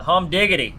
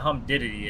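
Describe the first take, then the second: First: The word is garbled with altered, extra sounds. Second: The word is pronounced in the standard way.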